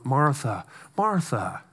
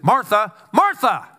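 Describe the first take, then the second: First: "Martha, Martha" said soft and low, fading; tender pet-name repetition; gentle endearment. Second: "Martha, Martha" called out high and loud; sharp wake-up call. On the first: Jesus gently soothing Martha, soft and tender. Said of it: "terms of endearment". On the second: Jesus snapping a distracted Martha awake, sharp and loud. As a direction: snap her out of it by calling her name. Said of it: "Jesus would say it like this". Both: Retold or imitated.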